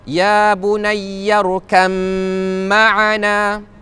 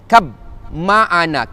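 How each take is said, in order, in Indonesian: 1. Bunyi b menyatu menjadi m sebelum ma'ana. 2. Bunyi b yang terpisah terdengar sebelum ma'ana. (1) "Ayat yang sama ada ya bunayyarkam ma'ana" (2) "jangan sebut ya bunayyarkab, kab ma'ana salah"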